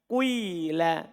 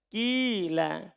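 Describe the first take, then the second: First: The first vowel blends a little u into i. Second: The first vowel is a pure i sound. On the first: "Sedikit domma kemudian kasro" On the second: "Boleh ikhlas kasro dibaca apa? Kila"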